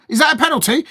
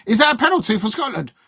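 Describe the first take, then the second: First: Surprised. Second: Said in the usual way. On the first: Real, not acted. Reacting to a possible penalty.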